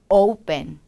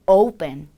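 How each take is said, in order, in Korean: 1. 첫 번째 모음은 o에서 u로 미끄러져요. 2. 첫 번째 모음은 o에서 u로 미끄러져요.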